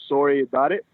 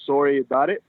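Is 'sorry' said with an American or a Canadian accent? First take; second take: Canadian; Canadian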